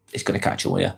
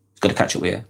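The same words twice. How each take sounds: First: Breathy whisper, dropped soft; whispered warning. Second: Said in the usual way. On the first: Acted. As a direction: hush it like a secret warning. Repeats warning, first whispered.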